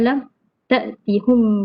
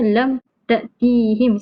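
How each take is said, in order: First: The vowel after the h is u. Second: The vowel after the h is i. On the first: This is one reciter's variant reading. "Ruwais tetap baca dengan dhammah" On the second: This is the form expected by the usual rule.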